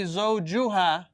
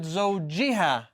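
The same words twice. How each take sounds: First: زوجها with a "u" vowel after the j; u-ending demonstration. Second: زوجها with an "i" vowel after the j; i-ending demonstration. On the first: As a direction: say زوجها as "zawju-ha". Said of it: "It didn't say". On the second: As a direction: say زوجها as "zawji-ha". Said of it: "It said". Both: Shown as a demonstration.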